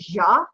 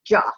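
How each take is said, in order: First: The consonant is a soft zh, as in jewelry. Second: The consonant is a hard J, as in jewel. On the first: This is a dialect pronunciation shaped by French influence. "you get a lot of ja in in a lot of different dialects" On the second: This is the classical Arabic pronunciation. "in classical Arabic, it's ja"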